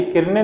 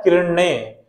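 First: किरणें said with a plain dental न, the wrong way; wrong pronunciation. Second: किरणें said with a retroflex ण, tongue curled back; correct pronunciation. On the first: Teacher showing students the wrong way to say किरणें. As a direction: say किरणें with न instead of ण. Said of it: "ये किरणें नहीं होता". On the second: Teacher showing students the right way to say किरणें. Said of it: "ये ना की जगह पे ड़ा आता है". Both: Shown as a demonstration.

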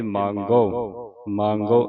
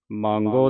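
First: ਮੰਗੋ with a pure oral final o; without bindi. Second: ਮੰਗੋ with a nasalised ending; with bindi. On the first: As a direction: end ਮੰਗੋ without nasalising. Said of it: "ਜੇ ਬਿੰਦੀ ਨਹੀਂ ਲਾਉਣੀ". (ਮੰਗੋ, ਬਿੰਦੀ ਤੋਂ ਬਿਨਾਂ) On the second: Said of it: "ਬਿੰਦੀ ਲਾ ਕੇ". (ਮੰਗੋ, ਬਿੰਦੀ ਲਾ ਕੇ) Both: Shown as a demonstration.

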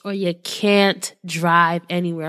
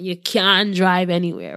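First: Said in the usual way. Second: A quick, half-hearted Jamaican accent; lightly done Jamaican accent. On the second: Shown as a demonstration. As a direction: toss off the line in a playful Jamaican accent. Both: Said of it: "I'm gonna say it in a Jamaican accent".

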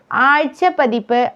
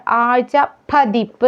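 First: ആഴ്ച പതിപ്പ് run on with a single പ; wrong single consonant. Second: ആഴ്ച പതിപ്പ് with പ്പ joining the two words; doubled consonant. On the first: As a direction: show ആഴ്ച പതിപ്പ് without doubling. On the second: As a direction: hit a doubled പ starting പതിപ്പ്. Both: Shown as a demonstration. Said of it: "പായുടെ ഇരട്ടിപ്പാണ്".

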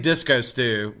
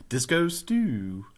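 First: Said in the usual way. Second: Lightly imitated cartoon catchphrase, drawn out slowly; a hint of a cartoon character, slow; Disco Stu. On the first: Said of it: "I think Disco Stu from". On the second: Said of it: "from The Simpsons".

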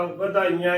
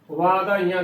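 First: ਵਧਾਈਆਂ with a short opening "va"; untrained misreading. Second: ਵਾਧਾਈਆਂ with a long opening "vaa"; correct long first vowel. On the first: Teacher showing an untrained reader's slip, ਵਧਾਈਆਂ with short first vowel. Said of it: "ਵਧਾਈਆਂ ਹੀ ਬੋਲੇਗਾ". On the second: Teacher contrasting it with the misreading, ਵਾਧਾਈਆਂ with long first "aa". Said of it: "ਦੀ ਜਗ੍ਹਾ ਵਧਾਈਆਂ ਹੀ ਬੋਲੇਗਾ". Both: Shown as a demonstration.

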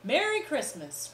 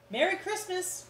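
First: Less high merry call from everyone; merry group farewell; cheerful cry. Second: High, bright holiday call; high cheerful shout; cheerful cry. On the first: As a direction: call it out together. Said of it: "cried one and all". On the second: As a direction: call it out merrily from the van. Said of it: "cried the delivery men". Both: Acted.

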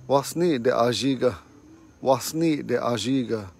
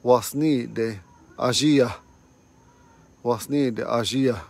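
First: Wasni de ajiga, man's form with a falling end. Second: Wasnide Ajia, woman's form, spoken slowly; the woman's form Wasnide Ajia, drawn out. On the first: Teacher contrasting the man's and woman's way, man's form. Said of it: "That's a man's way to say". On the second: Teacher contrasting the man's and woman's way, woman's form. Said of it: "And a woman's way is". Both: Shown as a demonstration.

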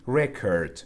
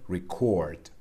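First: "record" with the stress on RE, as a noun; stress on first syllable. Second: "record" with the stress on CORD, as a verb; stress on second syllable. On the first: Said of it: "استرس رو روی سیلاب اول میذاریم". (تکیه روی هجای اول record) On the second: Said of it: "استرس میره رو سیلاب دوم". (تکیه روی هجای دوم record) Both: Shown as a demonstration.

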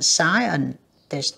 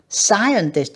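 First: "Scientist" drawn out very slowly, SCI- hit hard; slow stretched stress on first syllable. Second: "Scientist" slowed, SCI- clearly punched; stress on first syllable. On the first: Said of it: "âm một". (kéo dài "Scientist" thật chậm, nhấn âm một) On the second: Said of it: "nhấn âm một". (nhấn mạnh âm đầu "Scientist", đọc chậm) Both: Shown as a demonstration.

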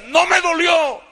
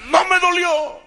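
First: High, loud, slow defiant cry; defiant yell. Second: High, loud defiant cry; defiant yell. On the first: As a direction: fling it back at him with hatred. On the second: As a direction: spit it back at him again, unbroken. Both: Retold or imitated. Son to beating father, high loud defiant yell.

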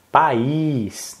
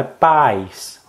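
First: "País" drawn out in two syllables, pa-ÍÍS; stressed Í. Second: "paz" as a slow single syllable, PÁIS; wrong stress, PAIS. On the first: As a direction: stretch the final Í of "País". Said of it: "faltou também outro acento". ("País" com Í tônico alongado) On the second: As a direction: stretch the A, gliding into "is". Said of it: "não é paz". ("paz" dito "pais", com A tônico) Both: Shown as a demonstration.

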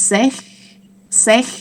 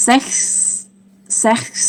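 First: "sech" short and rising, no closing s; "sech" as a first step, stopping before the s; sechs without final s. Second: "sechs" ending on a long hissed s; "sechs" complete, k sound then s; sechs with final s. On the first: Teacher builds six step by step, "sech" left without s. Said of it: "แล้วก็เติม". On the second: Teacher adds the ending to six, "sechs" with hissed s. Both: Shown as a demonstration.

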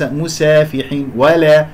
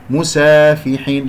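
First: "مسافحين" with the aa thinned toward ae; thin the alif in "مسافحين" and "ولا", as a mistake; wrong reduced alif. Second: "مسافحين" with a full, open long aa; correct full alif. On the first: (تقليل خاطئ لألف "مسافحين") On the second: (ألف كاملة في "مسافحين") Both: Shown as a demonstration. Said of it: "لا تقلل صوت الألف".

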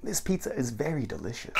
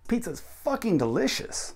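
First: Said in the usual way. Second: High-pitched stress on "fucking delicious"; emphatic American. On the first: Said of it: "does at least sound very strange". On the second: Shown as a demonstration. Teacher shows the American version, emphatic "fucking delicious". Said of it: "very emphatic and quite American".

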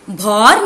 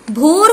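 First: भौर with an open "au", like "bhaur"; mispronounced भौर, vowel opened wide; wrong vowel औ. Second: भोर with a round, long "o", like "bhor"; corrected भोर, vowel held as a pure "oh". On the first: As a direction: sound out भौर with औ instead of ओ. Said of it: "भौर नहीं होता". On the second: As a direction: sound out भोर with ओ, not औ. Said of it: "भोर होता है". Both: Shown as a demonstration.

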